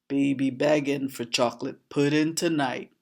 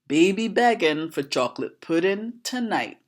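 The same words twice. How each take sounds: First: The voice is lowered to a deeper pitch. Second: The voice is at its normal pitch.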